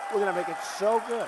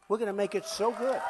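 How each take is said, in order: First: Rattled off fast; faster repeat. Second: Said in the usual way. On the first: Shown as a demonstration. Speaker repeats the promise to the crowd, quickly. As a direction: hurry through the promise again. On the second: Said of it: "repeated faster".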